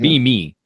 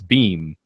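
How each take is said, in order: First: The name is said as two separate syllables. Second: The name is said as one syllable, rhyming with meme. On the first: The speaker calls it wrong. "I thought it was Be Me at first" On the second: The speaker calls it right. "like meme but with a B"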